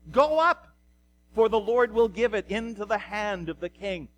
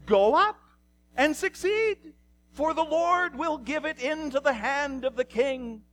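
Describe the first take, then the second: First: Emphatic call easing into measured pronouncement; prophets in unison. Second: High, put-on mocking sing-out; exaggerated false enthusiasm, pitched way up; dripping sarcasm. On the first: Acted. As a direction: proclaim it firmly as a crowd's answer. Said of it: "the answer is given in one voice". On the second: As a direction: parrot the official answer in a much higher voice. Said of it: "with sarcasm".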